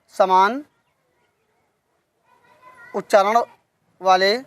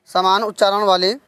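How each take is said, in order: First: Word by word with long pauses; dictation pace. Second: Said in the usual way. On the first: Shown as a demonstration. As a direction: dictate slowly, one word at a time. (श्रुतलेख की तरह रुक-रुक कर)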